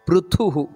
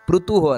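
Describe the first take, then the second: First: The 'th' is said with a strong breath. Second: The 'th' is said without a breath of air. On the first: The speaker calls it right. "ಥು ಅನ್ನೋದು ಮಹಾಪ್ರಾಣ ಅಲ್ಲಿ" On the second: The speaker calls it wrong. "ಅಲ್ಲ"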